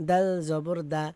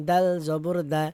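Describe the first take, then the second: No difference in how they are said.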